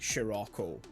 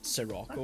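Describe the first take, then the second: First: The name begins with an 'sh' sound. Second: The name begins with a plain 's' sound. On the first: "the sort of like S I sound in Japanese is she" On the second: "rather than"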